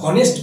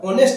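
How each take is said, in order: First: The word begins with an audible h sound. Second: The word begins directly with a vowel sound. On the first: The speaker calls it wrong. "হনেস্ট বলছি না" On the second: The speaker calls it right. "এটা যেহেতু অনেস্ট অ উচ্চারণ আসছে"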